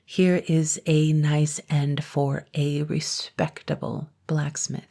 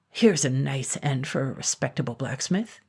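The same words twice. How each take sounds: First: Slow, every word spelled out clearly; very distinctly. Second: Said in the usual way. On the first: A narrator's reading. Said slowly and distinctly to be understood. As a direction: blacksmith says it again slowly and carefully for the dragon. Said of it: "very distinctly".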